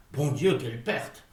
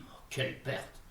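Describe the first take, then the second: First: Said in the usual way. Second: Breathless whispered lament; Oh, quelle perte, barely breathed; hushed despair over the loss. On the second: Acted. Grieving lost speech.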